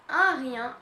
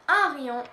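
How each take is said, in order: Both takes have the same delivery.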